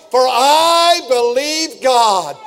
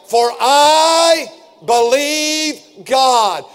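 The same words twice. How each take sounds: First: Very slow, drawn out, stress on I; slow declaration again. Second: Very slow, every word held; slow declaration. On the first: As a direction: model the line for the cars to repeat. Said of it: "Would you say it in the cars?". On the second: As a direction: let "I" carry the weight, then land "God". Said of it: "Will you say that?". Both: Shown as a demonstration.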